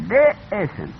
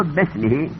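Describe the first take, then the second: First: "به اسم" split in two, e sounded on اسم; spelled with alef. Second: "بسمه" in one piece, bes-mehi; alef not pronounced. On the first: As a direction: break after به, then a clear "اسم". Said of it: "در نوشتن باید بنویسن". («به اسم» جدا، با همزه) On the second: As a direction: glide from be into s in "بسمه". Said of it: "الف را تلفظ نکن". («بسمه» سرهم، بدون الف) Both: Shown as a demonstration.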